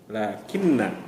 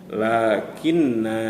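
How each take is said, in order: First: The final vowel is short. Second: The final vowel is long. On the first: The reading continues into the next word. "kalau dibaca wasal atau dibaca sambung, na terdengar atau dibaca pendek" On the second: The reading stops after this word. "kalau kita baca waqaf atau berhenti, maka nunnya akan dibaca panjang"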